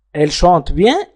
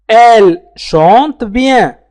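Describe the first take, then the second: First: Said in the usual way. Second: Elle chante bien drawn out slowly, syllable by syllable; very slow teacher demo; slow careful model. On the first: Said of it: "teacher repeats at normal pace". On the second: Shown as a demonstration. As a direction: spell it out slowly for learners. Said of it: "teacher models the sentence".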